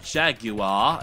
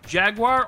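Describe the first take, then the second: First: Jaguar is said the way commercials pronounce it. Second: Jaguar is said the plain, everyday way.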